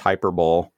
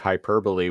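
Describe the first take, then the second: First: The word is said with a misread, spelled-out pronunciation. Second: The word is said with its standard pronunciation. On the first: The speaker calls it wrong. "was pronounced hyperbole" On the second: The speaker calls it right. "I used to think hyperbole"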